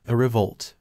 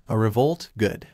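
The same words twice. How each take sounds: First: Said in the usual way. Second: Happy thought. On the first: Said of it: "Kendo asked her". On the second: A narrator's reading. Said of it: "thought happily".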